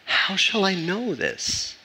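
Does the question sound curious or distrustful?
curious. It sounds like a sincere, curious question.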